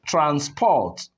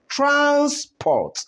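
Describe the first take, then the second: First: The stress is on the second syllable. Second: The stress is on the first syllable. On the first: The word is a verb. "the second one becomes what?" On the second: The word is a noun. "the first syllable takes the higher stress"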